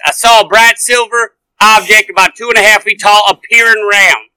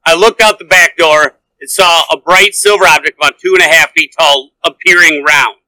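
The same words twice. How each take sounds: First: Reading with a light southern accent. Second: Said in the usual way. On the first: Shown as a demonstration. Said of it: "the southern accent to it". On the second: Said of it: "I read it deadpan, no accent".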